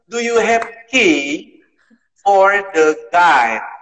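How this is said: The last word's vowel sounds like 'eye'. It imitates the accent of the person who said it. "Guide itu maksudnya itu eh, guide itu harusnya"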